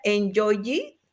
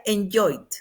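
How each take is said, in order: First: "enjoy" with an extra "ee" syllable, rising; candidate pronunciation. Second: "enjoyed" in two syllables with a released final stop; correct past pronunciation. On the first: Teacher offers students an option, slow rising "enjoy" with added syllable. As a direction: stretch "enjoy" into "en-joy-ee" as a query. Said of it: "si se pronuncia enjoy". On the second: Teacher gives students the answer, "enjoyed" with clipped final consonant. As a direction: close "enjoyed" right after "joy", no extra vowel. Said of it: "Entonces, sería enjoyed". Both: Shown as a demonstration.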